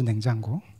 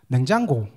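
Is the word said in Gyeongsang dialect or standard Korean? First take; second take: standard Korean; Gyeongsang dialect. First: It is said in a standard Seoul Korean accent. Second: It is said in a Gyeongsang regional accent. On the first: "표준어로 냉장고라 그러죠" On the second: "그럼 경상도 분들 냉장고 어떻게 아시죠?"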